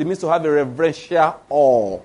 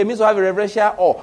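First: Mock reverence. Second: Said in the usual way. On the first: Preacher quoting those who redefine fear, mock-reverent. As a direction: lower mocking voice, drawing out AWE. Mocking others' definition of fear.

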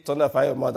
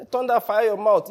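First: Said in the usual way. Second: The preacher mocks a scolding curse at a young girl, hammed-up. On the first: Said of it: "he didn't say". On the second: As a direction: thunder fire your mouth, higher and louder. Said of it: "I'm just making a joke of it".

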